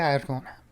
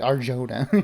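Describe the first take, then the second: First: The name is said with a Spanish accent. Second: The name is said with an English accent. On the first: "say it with the accent" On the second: "for people who can't pronounce it"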